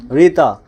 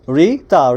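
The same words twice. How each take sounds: First: Said in the usual way. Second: রিতা in two separate beats, রি... তা; split into syllables. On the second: Shown as a demonstration. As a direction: break রিতা slowly after রি. (রিতা দুইবারে ভেঙে, রি-তা) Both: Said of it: "দুই syllable".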